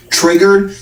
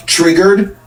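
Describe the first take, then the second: First: High, rising mock question again; a second jab, pitched up; taunting high question; mocking taunt repeated. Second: High, rising mock question; teasing high rise; mocking taunt. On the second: Quoting Newsom's taunt at Trump.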